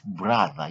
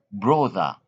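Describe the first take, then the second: First: Brother with a short uh; correct brother. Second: Brother with an O sound; wrong brother. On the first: Teacher giving the right way, brother with uh. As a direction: brother said bruh-ther. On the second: Teacher showing the mistake, brother with an O. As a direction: brother rounded like bro-ther with O. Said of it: "Don't say". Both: Shown as a demonstration.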